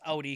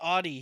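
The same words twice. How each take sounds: First: The name is said the German way. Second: The name is said the American English way. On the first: "it's supposed to be pronounced Audi because it's German" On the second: "It's Audi here in America"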